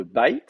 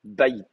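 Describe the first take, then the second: First: Bait as one drawn-out syllable, "bayt"; without helping vowel. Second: Bait as "BA-yit", short i before the t; bait, stressed ba then unstressed yit; helping vowel inserted. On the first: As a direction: say bait slowly, closing y straight onto t. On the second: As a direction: say bait with a light second syllable. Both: Shown as a demonstration. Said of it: "On va mettre un petit i entre les deux".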